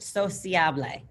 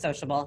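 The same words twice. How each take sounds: First: It is pronounced like the Spanish word. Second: It is pronounced like the English word. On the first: The speaker calls it right. "you got to give it a little accent" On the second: The speaker calls it wrong. "It looks like sociable"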